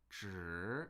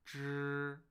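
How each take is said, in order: First: The pitch rises upward. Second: The pitch stays high and flat. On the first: "which is rising" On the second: "a first flat, high, and unchanging"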